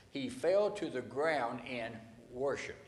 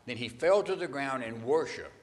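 First: 慢慢重复，重读fell; slow emphatic repeat. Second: 重读fell，放慢说“He fell to the ground”; stress on fell. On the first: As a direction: say it slower, leaning on fell. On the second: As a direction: lean on fell, then let it land. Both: Shown as a demonstration. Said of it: "Catch that word".

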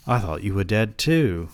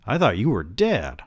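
First: Lightly put-on British accent. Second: Said in the usual way. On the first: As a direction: answer with a hint of British. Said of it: "giving this man a British accent". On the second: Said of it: "I told him".

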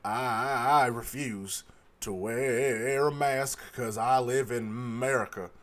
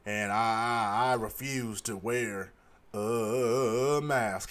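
First: Lightly voiced defiant man; imitating the mask refuser. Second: Low, slow, dopey mock voice; lightly voiced stubborn customer; a hint of a sullen man refusing; imitating the mask refuser. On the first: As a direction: drag it out like a stubborn customer. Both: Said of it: "He said it just like that".

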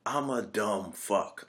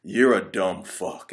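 First: Slow, soft, dejected mumble; slow hushed self-putdown; deadpan self-insult. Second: Slow, flat, scornful insult; unhurried contemptuous jab; wife's putdown. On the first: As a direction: mutter it like a beaten-down husband. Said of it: "he's like". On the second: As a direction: drag it out like a fed-up wife. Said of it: "she's like". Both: Retold or imitated.

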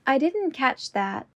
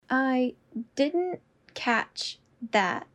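First: Said in the usual way. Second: Slow, each word apart. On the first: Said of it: "repetition drill, normal take". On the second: Shown as a demonstration. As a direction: say it slowly, word by word. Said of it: "repetition drill, slowed take".

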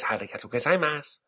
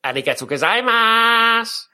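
First: Softer, lightly put-on Japanese accent; soft fake Japanese accent. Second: High, loud, silly fake Japanese accent. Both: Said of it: "silly fake Japanese voice".

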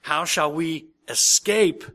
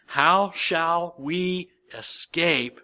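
First: Louder, slower, with "escape" rising; stress on escape. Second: "escape" drawn out slowly and weighted; stress on escape. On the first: Preacher repeating the verse, pressing "escape" harder. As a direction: lift and push "escape" up at the end. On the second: Preacher reading the verse to the congregation, slow weight on "escape". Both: Shown as a demonstration. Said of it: "Did you hear the word I emphasized there?".

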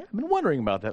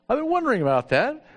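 First: Said in the usual way. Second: "wondering" lifted high and louder, faking concern; mock earnest. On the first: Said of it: "And so she says". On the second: Pastor pretending to his secretary he'd noticed the cyst, high and louder. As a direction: overplay it like you knew all along. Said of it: "I hadn't seen it ever".

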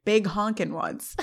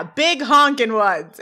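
First: Softer, slow deadpan echo; dry repeat. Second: Loud, drawn-out brash answer; brash boast. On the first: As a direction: repeat it quietly and unimpressed, drawn out. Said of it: "turns back to Turner and repeats". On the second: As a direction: retell it big and slow, stretching the words. Sean's brash answer, later repeated. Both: Retold or imitated.

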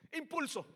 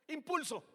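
No difference in how they are said.

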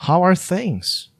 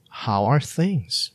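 First: How are things said high with a falling end; bright high model phrase. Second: How are things said slowly with each word drawn out; slow careful repeat. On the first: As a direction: pitch it up and let it fall. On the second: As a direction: say it slowly for learners. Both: Shown as a demonstration. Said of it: "Another one is".

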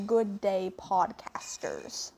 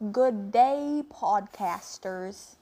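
First: Slow Aussie greeting, a little British; attempted Australian accent. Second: Put-on Aussie accent slipping into Texan; too-Texan Australian attempt. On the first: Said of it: "Did I sound Australian enough?". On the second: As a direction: greet in a botched Australian accent, drawn out Texan-style. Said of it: "That sounded too Texan".

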